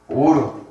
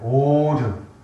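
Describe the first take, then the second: First: The vowel is held briefly. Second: The vowel is drawn out longer. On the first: "짧은 오르" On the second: "긴 오르"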